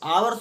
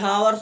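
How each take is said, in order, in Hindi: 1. यह शब्द स्वर (vowel) की आवाज़ से शुरू होता है। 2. यह शब्द 'h' की आवाज़ से शुरू होता है। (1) "आवर्स होता है, एच साइलेंट होता है" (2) "हावर्स नहीं होता"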